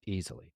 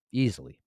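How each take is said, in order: First: Quiet emphatic repeat. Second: Said in the usual way. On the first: Real, not acted. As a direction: drop the volume on the repeat.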